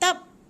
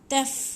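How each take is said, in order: First: The final sound is a p with closed lips. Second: The final sound is an f with airflow. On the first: The speaker calls it wrong. "jangan bunyi tap macam pa pula kan" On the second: The speaker calls it right. "Fa macam tu"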